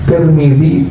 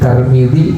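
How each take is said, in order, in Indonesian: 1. Suku kata pertama memakai vokal i. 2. Suku kata pertama memakai vokal a. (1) "boleh baca Tirmidzi" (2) "Tiga bacaan ya"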